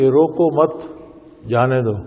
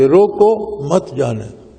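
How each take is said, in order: First: The pause comes after مت. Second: The pause comes after روکو.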